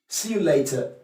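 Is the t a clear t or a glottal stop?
clear t. The t is pronounced as a clear t. "what the Cockney person is trying to communicate with you is later"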